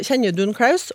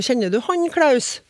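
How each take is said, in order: First: Said in the usual way. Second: Han weighted, Klaus pitched up high then falling; stress on han. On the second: Shown as a demonstration. Contrasting forms for the host, stressed han. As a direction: mark the word han as the distant one. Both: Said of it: "forskjellen på".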